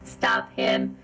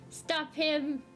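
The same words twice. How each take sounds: First: It is said in a robot voice. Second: It is said in a normal voice.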